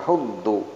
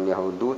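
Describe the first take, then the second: First: The d sound is held and doubled. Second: The d sound is short and single. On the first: The speaker calls it right. "ini ada tasjid ... tapi yahuddu" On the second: The speaker calls it wrong. "bukan yahudu"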